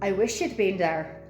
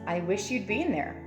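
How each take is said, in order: First: An Irish accent with the words run together. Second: A Canadian accent with the words kept separate. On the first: "when you're speaking with an Irish accent" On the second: "in a Canadian, it's"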